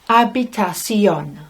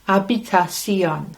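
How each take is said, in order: Both takes have the same delivery.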